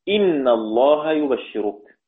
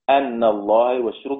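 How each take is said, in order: First: The first word begins with an 'i' vowel. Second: The first word begins with an 'a' vowel. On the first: "يعني قرأ حمزة وابن عامر" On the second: "بالفتح"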